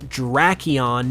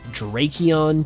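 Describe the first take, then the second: First: The stress falls on the first half. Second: The stress falls later in the name. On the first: The speaker calls it right. "puts more emphasis on the first half of the name" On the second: The speaker calls it wrong. "You could also pronounce this name as Drakion too"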